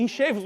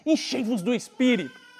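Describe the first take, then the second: First: Said in the usual way. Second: "Enchei-vos do Espírito" with weight on "do"; ênfase na citação. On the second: Shown as a demonstration. (peso em "do" em "Enchei-vos do Espírito") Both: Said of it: "a expressão que o apóstolo Paulo diz".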